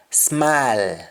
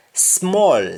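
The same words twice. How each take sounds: First: SMALL as long open "smaal"; Jamaican pronunciation. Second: SMALL with rounded "smoll" vowel; English-style round vowel in SMALL; English pronunciation. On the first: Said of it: "we say al". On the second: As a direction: say SMALL as "smawl". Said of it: "instead of saying all". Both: Shown as a demonstration.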